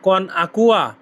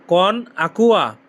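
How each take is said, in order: First: Said in the usual way. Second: "কন Aqua" drawn out slowly; slow, careful model of "কন Aqua"; slow demo. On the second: Shown as a demonstration. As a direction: stretch "কন Aqua" for learners to copy. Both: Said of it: "এর Italian কি হবে?".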